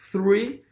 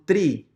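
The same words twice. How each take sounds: First: It starts with a th sound. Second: It starts with a plain t sound. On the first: The speaker calls it right. "cuando tú comienzas a pronunciar correctamente" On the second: The speaker calls it wrong. "mucha gente me decía, tree es árbol"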